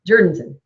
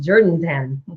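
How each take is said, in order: First: The last syllable sounds like 'ton'. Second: The last syllable sounds like 'town'. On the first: The speaker calls it right. "Because it's this Jordanton" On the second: The speaker calls it wrong. "Oh, that wasn't that good"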